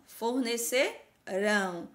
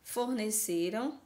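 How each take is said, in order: First: FORNECERÃO slow, broken before a strong final RÃO; drawn-out "fornecerão", hitting the last syllable; stress on last syllable. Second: FORNECERAM slow, stressed on CE, weak final -ram; slow "forneceram", leaning on the middle CE; stress on penultimate. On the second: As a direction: sound out "forneceram" with an unstressed ending. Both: Shown as a demonstration. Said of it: "a sílaba mais forte é a última".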